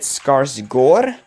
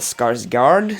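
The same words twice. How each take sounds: First: The last syllable has an 'o' vowel. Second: The last syllable has an 'a' vowel. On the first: This is how it is said in Norway. "here in Norway we pronounce it Skarsgård, because that A with the circle over it is pronounced like O" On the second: This is how it is said elsewhere. "everywhere else people just call him Bill Skarsgård"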